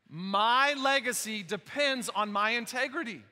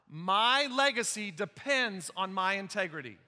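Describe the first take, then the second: First: It is said forcefully, with strong conviction. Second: It is said plainly, without strong conviction.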